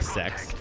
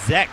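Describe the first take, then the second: First: The word begins with a hissing S sound. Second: The word begins with a buzzing Z sound. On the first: The speaker calls it wrong. "it's actually not at all like sex" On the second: The speaker calls it right. "you have to say it with a Z"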